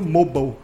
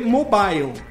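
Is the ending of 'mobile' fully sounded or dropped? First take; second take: dropped; sounded. First: The '-ile' ending is dropped. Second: The '-ile' ending is fully sounded. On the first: This is how native speakers say the word. The speaker calls it right. "a pronúncia deles, nativos, acaba sendo mobile" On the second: This is how the word reads from its spelling. The speaker calls it wrong. "mesmo quem tem um inglês básico vai ler mobile, M-O-B-I-L-E"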